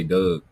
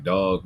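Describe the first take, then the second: First: "Doug" said the Baltimore way with a short "uh" vowel, like the name Doug; Baltimore accent. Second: "Dog" said the Cali way with an open "aw" vowel; California accent. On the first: Shown as a demonstration. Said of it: "we say". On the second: Retold or imitated. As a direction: imitate Cali people saying "Dog". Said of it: "how Cali people be like".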